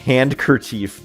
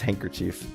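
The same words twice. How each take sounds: First: The D sound is pronounced in the word. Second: The D sound is left out of the word. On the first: "I always get thrown off by the spelling of that" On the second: "The D is silent"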